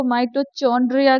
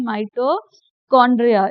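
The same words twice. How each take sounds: First: माइटोचॉन्ड्रिया said with a "ch" sound in the middle, as students wrongly say it; wrong pronunciation. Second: माइटोकॉन्ड्रिया with a hard "k" in the middle, the h silent, said firmly; correct pronunciation. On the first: Teacher showing students the common wrong way, mispronounced. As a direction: say माइटोचॉन्ड्रिया the way kids mistakenly do, with "ch". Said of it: "वो गलत है बेटा". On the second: Teacher giving students the right form, firm and clear. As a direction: state माइटोकॉन्ड्रिया clearly with "k", a touch louder. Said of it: "इसका जो H है वो silent है".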